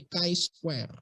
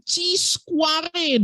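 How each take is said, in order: First: "Chi square" said with "kai", softer; correct reading. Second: "C square" read as "ci skuare", high and mocking; mocking wrong reading. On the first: Shown as a demonstration. Lecturer giving the right reading, soft "Chi square". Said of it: "Bacanya bukan C square". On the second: Lecturer mocking seniors, high mock "C square". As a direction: mimic seniors saying "C square" as "ci". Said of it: "senior kalian bacanya".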